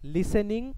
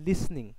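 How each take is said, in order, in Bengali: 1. s এবং n-এর মাঝে একটি স্বরধ্বনি উচ্চারিত হয়। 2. s সরাসরি n-এর সঙ্গে লেগে যায়। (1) "লিসেনিং উচ্চারণটা ভুল" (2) "এটার উচ্চারণ হচ্ছে লিসনিং"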